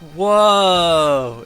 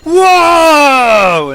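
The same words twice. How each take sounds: First: It is said flatly, with little energy. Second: It is said with lots of energy.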